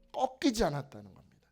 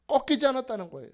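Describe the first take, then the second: First: Said in the usual way. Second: 꺾이지 hit hard, louder and fast; emphatic. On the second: Shown as a demonstration. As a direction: drive home 꺾이지 with force. (꺾이지를 힘주어 빠르게)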